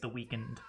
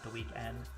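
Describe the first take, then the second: First: The second syllable is said without its vowel. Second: The second syllable is said with a full vowel. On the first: The name is read as spelled, without the e. The speaker calls it right. "I think it's the weekend" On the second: The name is read as the ordinary word. The speaker calls it wrong. "not the weekend"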